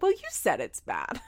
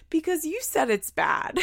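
First: Said in the usual way. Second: Put-on high, raspy child voice; imitated little girl. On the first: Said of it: "And then Aubrey's like". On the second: Retelling the child's comeback to mom, high little-girl voice. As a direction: put on a small raspy kid's voice. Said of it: "Her little raspy voice".

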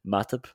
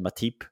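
First: Matip with a short, weak "-tip"; standard pronunciation. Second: Matip with a long "ee", "ma-TEEP"; mispronunciation. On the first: Shown as a demonstration. Co-host correcting a friend's pronunciation, standard pronunciation. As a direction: say Matip as "MAT-up". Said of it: "your pronunciation of". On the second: Retold or imitated. Co-host quoting a friend's slip, mispronunciation. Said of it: "You said Matip".

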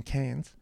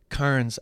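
First: "Cairns" with no r, like CANS; "Cairns" rhyming with "fans"; Australian pronunciation. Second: "Cairns" with the r sounded, KARNS; pronounced as spelled. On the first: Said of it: "Cairns actually being Cairns". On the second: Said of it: "actually being Cairns". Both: Shown as a demonstration.

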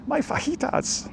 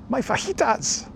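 First: High, slow, breathless squeak; quoted TV catchphrase. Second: High, slow squeaky cartoon voice; quoted TV catchphrase. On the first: Retold or imitated. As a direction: squeak it out like a cartoon. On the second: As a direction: squeak the line like a kids' show character. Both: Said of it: "what television program am I, uh, quoting from?".

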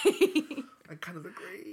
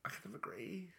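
First: Slow, stretched, full voice; slow drawn-out agreement. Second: Whispered guilty agreement. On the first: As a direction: drag the words out deliberately. Repeated louder, drawn out. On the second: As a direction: breathe it like a secret. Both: Real, not acted.

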